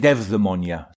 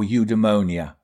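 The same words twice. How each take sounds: First: The word is said with a Greek pronunciation. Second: The word is said with an English pronunciation. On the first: "So Greeks would pronounce it eudaimonia" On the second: "I think in English, it's eudaimonia"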